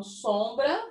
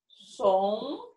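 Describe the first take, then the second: First: Said in the usual way. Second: "sombra" em duas sílabas separadas, som... bra; silabado. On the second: Shown as a demonstration. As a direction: dizer "sombra" devagar, com pausa entre "som" e "bra". Professora separa as sílabas da palavra. ("sombra" separado em sílabas)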